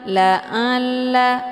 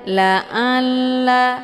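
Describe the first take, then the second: First: The ain sound comes out through the nose. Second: The same.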